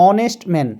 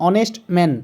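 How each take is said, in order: The two takes are said the same way.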